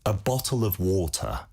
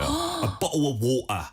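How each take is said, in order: First: It is said in a standard British accent. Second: It is said in working-class British, t's swallowed. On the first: "영국식으로" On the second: "그 티 그냥 다 삼켜버리는 거예요"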